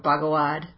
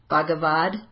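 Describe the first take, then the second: First: The middle consonant is a W-like sound. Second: The middle consonant is a clear V sound. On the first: This is how Indians say it. "Indians do not say the V. I think it's more like a Bhagawan or Bhagawad" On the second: This is how most Americans say it. "I say the V because I'm an American"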